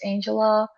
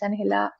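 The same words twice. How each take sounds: First: The name is said with an English pronunciation. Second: The name is said with a Spanish pronunciation. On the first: "my name is Angela" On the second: "but I'm Colombian, so the real pronunciation of my name is"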